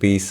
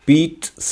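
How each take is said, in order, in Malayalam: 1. നടുവിലുള്ള വ്യഞ്ജനം സാധാരണ z ശബ്ദമാണ്. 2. നടുവിലുള്ള വ്യഞ്ജനം ts ശബ്ദമാണ്. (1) "നമ്മുടെ നാട്ടിൽ" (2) "ഇവിടെ പീറ്റ്സ എന്നാണ്"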